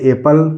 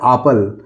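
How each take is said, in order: First: The word starts with an e vowel. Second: The word starts with a long aa vowel. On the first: "ए के रूप में pronounce हो सकता" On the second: "आ के रूप में भी प्रोनाउंस हो सकता है"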